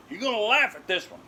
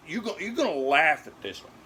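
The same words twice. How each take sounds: First: Higher, fast, stress on laugh; insisting. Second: Said in the usual way. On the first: Real, not acted.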